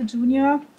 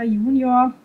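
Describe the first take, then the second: First: Junior is pronounced with an English pronunciation. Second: Junior is pronounced with a German pronunciation.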